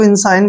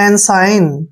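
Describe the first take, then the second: First: The word begins with an 'in' sound. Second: The word begins with an 'en' sound. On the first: "आप इसको इंसाइन भी पढ़ सकते हैं" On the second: "ई का उच्चारण हम ए करेंगे"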